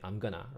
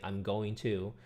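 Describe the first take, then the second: First: The words are squeezed into a shortened form. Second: Each word is said fully and separately. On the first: "simplify words in their speech" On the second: "instead of saying"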